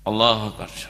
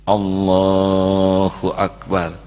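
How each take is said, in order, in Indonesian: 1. Diucapkan dengan cepat dan tergesa-gesa. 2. Diucapkan dengan pelan dan hati-hati. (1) "Jangan sampai" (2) "Coba sholatnya seperti itu"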